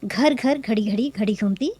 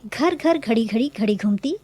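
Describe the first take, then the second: The two takes are said the same way.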